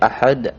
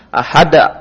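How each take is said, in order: First: The final d ends with a light bounce. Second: An extra vowel is added after the final d. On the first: The speaker calls it right. "dia memantul tapi tidak terlalu memaksakan" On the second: The speaker calls it wrong. "tapi bukan ahada, bukan"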